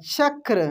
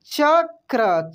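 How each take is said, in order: First: Said in the usual way. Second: चक्र very slow, rolled र held; slow spelling-out. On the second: Shown as a demonstration. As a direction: drag out चक्र for the class. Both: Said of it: "कैसे पढ़ेंगे?".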